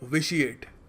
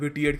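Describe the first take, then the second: First: The middle consonant is a soft sh sound. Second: The middle consonant is a hard t sound. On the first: The speaker calls it right. "It's pronounced विशिएट" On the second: The speaker calls it wrong. "कुछ लोग पता नहीं क्या कुछ और बोल देते हैं, विटिएट कह देते हैं इसको"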